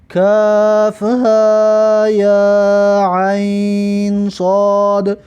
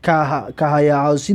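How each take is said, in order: First: Each letter is said separately by its name. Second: The letters are run together as one word. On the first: The speaker calls it right. "بلکه چی میگیم" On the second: The speaker calls it wrong. "ایشا بهش جنگ نمی اندازیم ... نمیگیم"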